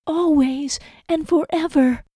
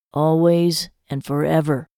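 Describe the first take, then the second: First: High, slow echoing vow; Lizzie's echo. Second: Said in the usual way. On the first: A narrator's reading. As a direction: echo his words slowly in a high voice.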